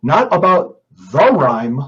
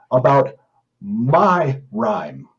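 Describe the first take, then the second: First: Said in the usual way. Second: "my" slow and hit hard, set apart by a pause; "my" drawn out and weighted, not "the"; stress on my. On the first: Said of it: "Emphasis the word my". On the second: Shown as a demonstration. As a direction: lean on "my" in "about my rhyme". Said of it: "Emphasis the word my, M Y".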